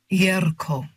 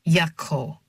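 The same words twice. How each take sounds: First: Put-on "Yerko" with a sounded r, solemn and accented; name said correctly. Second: "Yako" with a short a and no r; mispronounced "Yako", the r dropped; name said wrongly. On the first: Foreign man correcting his name, "Yerko" with sounded r. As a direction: land firmly on "Yerko", r clearly sounded. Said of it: "and not Yako, but". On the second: Foreign man showing the wrong name, "Yako" without the r. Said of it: "and not Yako". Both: A narrator's reading.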